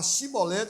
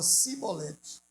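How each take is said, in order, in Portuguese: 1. A palavra começa com som de 'sh'. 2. A palavra começa com som de 's'. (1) "Eles iam falar chibolete" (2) "eles falavam cibolete"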